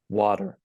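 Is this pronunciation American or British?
American. It is said in an American accent. "and then the American version"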